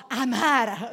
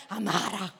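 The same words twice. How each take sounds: First: Loud, drawn-out Barese "amara"; heavy Bari accent. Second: Thick Barese "amara" full of aspirated H sounds; heavy Bari accent. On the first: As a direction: belt out "amara" slowly in broad Bari dialect. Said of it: "un accento barese bello carico". ("amara" forte e allungato, in barese carico) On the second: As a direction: say "amara" in broad Bari dialect, heavily aspirated. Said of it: "lo fai anche con tante H". (accento barese bello carico, con tante H) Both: Shown as a demonstration.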